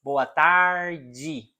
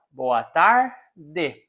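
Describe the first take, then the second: First: "Boa tarde" with final "de" as "jee"; Rio pronunciation. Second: "Boa tarde" with final "de" as a plain "deh"; teacher's southern Brazilian "Boa tarde"; southern Brazilian pronunciation. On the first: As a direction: pronounce "tarde" as "tar-jee", Rio style. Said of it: "people from Rio de Janeiro". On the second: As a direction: pronounce the d in "tarde" hard, southern style. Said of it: "people from the south". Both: Shown as a demonstration.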